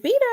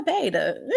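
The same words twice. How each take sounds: First: Beta said as BEE-tuh, pitched up; BEE-tuh pronunciation. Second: Beta said as BAY-duh; BAY-duh pronunciation. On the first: Host asking which name is right, Beta pronounced BEE-tuh. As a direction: make the first syllable of Beta rhyme with "see". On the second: Host asking which name is right, Beta pronounced BAY-duh. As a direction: make the first syllable of Beta rhyme with "say". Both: Shown as a demonstration.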